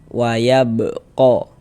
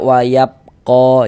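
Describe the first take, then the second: First: The b sound is released with a bounce. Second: The b sound is closed off without a bounce. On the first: The speaker calls it right. "Tapi kita pantulkan" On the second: The speaker calls it wrong. "Jangan dibaca wayab ko, jangan"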